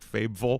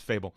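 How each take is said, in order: First: It ends with a 'ville' syllable. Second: It sounds like the ordinary word 'fable'. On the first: The speaker calls it wrong. "or like Fabville" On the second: The speaker calls it right. "No, it's Fable"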